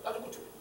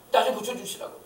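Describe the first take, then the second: First: The plea repeated in a breathless whisper. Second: A voiced, imploring cry for healing; pleading aloud. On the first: Acted. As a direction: drop to a whisper and beg again. 같은 간청을 속삭여 반복. (속삭이듯 다시 애원하듯) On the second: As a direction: beg him out loud. 병자가 예수께 간청함. (소리 내어 간절히 애원하듯)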